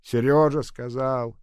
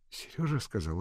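First: Louder, slow mocking echo; mocking mimic. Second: Said in the usual way. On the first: A narrator's reading. Old nurse mocking Nadenka's words, sarcastic mimic. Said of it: "передразнила Агаша".

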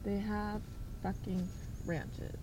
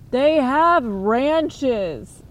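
First: Much softer, "fucking" stressed low; muttered disbelief. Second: Slow, loud, stressed "have"; exasperated emphasis. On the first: Repeating the ranch complaint, soft disbelieving mutter. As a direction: mutter it under your breath in disbelief. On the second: Ranting about cult ranches, slow loud emphasis. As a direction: lean hard on "have", drawn out. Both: Real, not acted.

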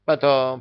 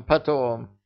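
First: Hurried. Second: High, hasty repeat; hurried. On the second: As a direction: brush it off quickly. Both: A narrator's reading. King hurriedly dismissing.

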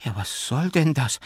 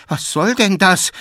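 First: Mildly startled, higher-pitched question; confused and frightened. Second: High, loud startled protest; alarmed and confused. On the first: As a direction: ask in bewildered alarm. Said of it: "murmelte verwirrt und erschrocken". (verwirrt und erschrocken) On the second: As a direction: cry out in bewildered fright. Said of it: "verwirrt und erschrocken". (erschrocken aufrufen) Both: A narrator's reading.

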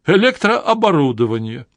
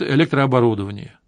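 First: Электрооборудование lifted higher with a rising amazed tune; amazed echo. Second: Said in the usual way. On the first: A narrator's reading. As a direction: savour электрооборудование in awe. Chablis echoes the word amazed.

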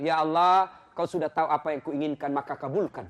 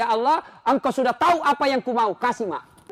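First: Casual laughing prayer. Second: Said in the usual way. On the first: Shown as a demonstration. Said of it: "Boleh begitu". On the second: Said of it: "Bahkan boleh berdoa begini".

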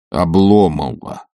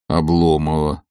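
First: Slow, stunned echo of the name; stunned repeat. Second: Said in the usual way. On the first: A narrator's reading. Stolz repeats Olga's answer, slowly and stunned. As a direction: let the name hang in disbelief. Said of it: "повторил он в изумлении". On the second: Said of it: "повторил он вновь".

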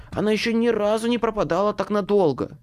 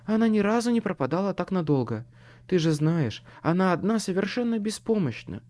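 First: Higher, exasperated man's complaint; lightly hissed worry, pitched up; man fretting, a hint of a hiss; hissed retort. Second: Higher, lightly voiced woman; a hint of a worried woman, pitched up; understated female voice, insisting; muffled female voice. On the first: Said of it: "шипел мужской голос". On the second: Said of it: "отвечал приглушённый женский голос". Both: A narrator's reading.

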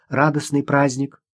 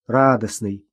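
First: Said in the usual way. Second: Grumbling. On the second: A narrator's reading. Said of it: "проворчала девочка".

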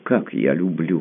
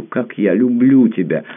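First: Said in the usual way. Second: Louder and higher, stress on люблю falling hard; passionate outcry. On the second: A narrator's reading. Tamara declaring her love to Pierre, louder and higher. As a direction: swell up on люблю, nearly crying it out. Repeated confession, second take builds.

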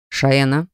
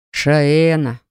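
First: Short, stern warning; barked name. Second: Drawn-out, weary falling name; sighing. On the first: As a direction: bark the name as a reprimand. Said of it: "рявкнул на неё Рен". (строгий окрик) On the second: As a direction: sigh the name out slowly. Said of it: "вздохнул Гарт". (со вздохом) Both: A narrator's reading.

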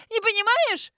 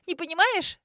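First: Much higher and louder scream on "понимаешь"; full shriek. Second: Higher, incredulous yelp on "понимаешь"; shrill squeal. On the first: Grace repeating it to her sister, screaming hysterically. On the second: Grace hearing her sister doesn't understand, shrill disbelief. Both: A narrator's reading. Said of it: "взвизгнула Грейс".

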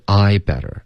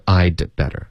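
First: "I better" run together with no d; "I better" without a break after I; missing stop. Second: "I'd better" with a held d before better; "I'd better" with a short break at the d; crisp stop. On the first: Retold or imitated. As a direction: imitate the learner gliding straight through "I better". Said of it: "所以就变成I better". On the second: Shown as a demonstration. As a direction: cut "I'd" off cleanly, then "better". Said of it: "不是I'd better".

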